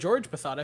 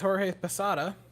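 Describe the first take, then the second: First: Jorge is said with an anglicized pronunciation. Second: Jorge is said with a Spanish pronunciation.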